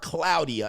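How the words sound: The name is said with Spanish pronunciation.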